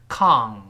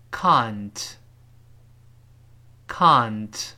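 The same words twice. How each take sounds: First: Can't as "kahngt", with tongue root raised; slow, loud can't with a wrong ng; mispronounced British can't. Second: Can't as a long "kahnt", tongue root flat; loud, drawn-out ah in can't, plain n before t; correct British can't. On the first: Teacher showing what to avoid, can't with ng. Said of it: "而不是can't". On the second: Teacher letting learners feel the sound, slow British can't. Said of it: "我们慢慢体会一下这个声音". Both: Shown as a demonstration.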